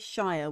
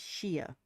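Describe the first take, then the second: First: The word rhymes with fire. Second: The word rhymes with beer. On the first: The speaker calls it wrong. "We don't say Shire" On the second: The speaker calls it right. "we say Sheer"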